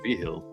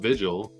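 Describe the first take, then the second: First: The middle consonant is pronounced as an H. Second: The middle consonant is pronounced as a G. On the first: "The G goes H" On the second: "he's like Tim Vigil"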